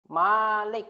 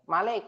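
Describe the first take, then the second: First: The first vowel is long. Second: The first vowel is short. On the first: It means owner. The speaker calls it wrong. "bukan Malik ya" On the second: It means king. The speaker calls it right. "dipendekkan seperti ini, nggak pakai alif"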